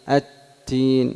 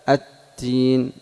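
No difference in how they are said.

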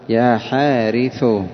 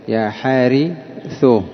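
Both takes have the same delivery.

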